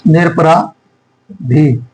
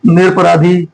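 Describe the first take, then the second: First: निरपराधी slowly, long pause before the final "dhi"; syllable-by-syllable dictation. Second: Said in the usual way. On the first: Shown as a demonstration. Dictating, word broken into parts.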